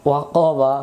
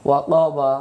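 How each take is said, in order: No difference in how they are said.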